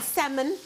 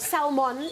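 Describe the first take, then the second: First: The word is said the common way. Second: The word is said the South African way.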